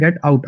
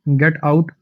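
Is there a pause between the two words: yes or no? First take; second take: yes; no. First: A short pause separates the two words. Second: The two words run together without a pause. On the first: Go out to have fun. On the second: Leave this place.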